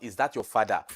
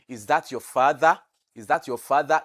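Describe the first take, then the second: First: "Is that your father" dropping on "father"; falling tone. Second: Loud "Is that your father" climbing on "father"; emphatic yes-no question, voice lifted on "father"; rising tone. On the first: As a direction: let "father" come down in pitch. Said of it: "it is falling tone". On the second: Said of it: "is rising tone". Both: Shown as a demonstration.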